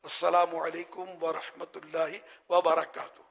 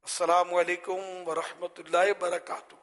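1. آخری لفظ سے پہلے 'wa' ادا کی جاتی ہے۔ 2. آخری لفظ سے پہلے 'wa' حذف ہو جاتی ہے۔ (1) "یہ واو بھی سنت ہے بولنا, یہ حدیث کا سلام ہے نا" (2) "یہ آخری واو میں نے بہت بار نوٹ کیا ہے کہ پتہ نہیں یہ حذف کیوں ہو جاتا ہے"

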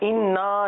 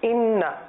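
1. آخری مصوتہ کھینچ کر لمبا ہے۔ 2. آخری مصوتہ چھوٹا ہے۔ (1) "انا نہیں" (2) "اس کو کھینچیں گے نہیں"

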